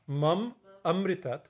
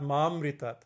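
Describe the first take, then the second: First: The syllable am is heard twice. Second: The syllable am is heard only once. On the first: Give me immortality. The speaker calls it right. "mam amritat means give me immortality" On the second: Kill me. The speaker calls it wrong. "not mamritat"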